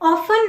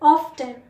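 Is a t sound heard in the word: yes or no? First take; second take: no; yes. First: No t sound is heard in the middle. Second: A t sound is heard in the middle. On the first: The speaker calls it wrong. "ऑफन नहीं होता" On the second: The speaker calls it right. "टी silent नहीं होता"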